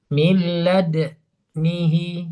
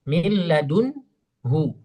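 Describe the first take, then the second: First: The d has no vowel, lips briefly rounded. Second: The d is followed by a u vowel. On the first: "dibaca dengan iskanud dal wal ismam pada dal" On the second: "Asalnya kan dalam riwayat Hafs kan milladunhu"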